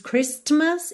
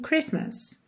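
First: A t sound is heard in the middle. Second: No t sound is heard in the middle. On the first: The speaker calls it wrong. "A gente não diz Christmas" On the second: The speaker calls it right. "não há som da letra T"

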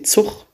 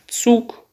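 First: The word is said with a Rhenish dialect sound. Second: The word is said with a standard German sound. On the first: "Die rheinische Sprache zeichnet sich durch bestimmte Eigenschaften aus, die entweder lautlicher Natur sind, also zum Beispiel sowas wie Zug statt" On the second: "statt Zug"

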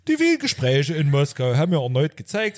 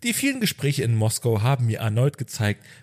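First: It is spoken in a strong Saxon dialect. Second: It is spoken with only a mild regional accent. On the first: "im sächsischen Dialekt sprechen" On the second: "spricht ja nicht so extrem Sächsisch"

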